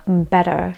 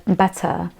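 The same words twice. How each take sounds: First: "better" with the T softened to a D; American "better", like "bedder". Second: "better" with a true T and no final R; British "better", T sounded as T. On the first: Showing how Americans might say better, D-like T. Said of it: "In American accent, one might pronounce it". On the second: Teacher showing the word better, British T. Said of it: "In British English or the R P". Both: Shown as a demonstration.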